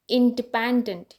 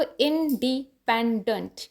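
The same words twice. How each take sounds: First: independent as one connected word; connected teaching demo of independent, falling at the end; whole-word demo. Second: independent slowly, split into syllables; slow teaching demo of independent, each syllable apart. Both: Shown as a demonstration. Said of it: "ई जो first".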